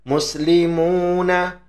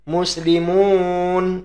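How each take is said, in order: First: The word ends with a vowel after the n. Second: The word ends on a bare n sound. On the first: The reader continues past the word. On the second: The reader stops on the word.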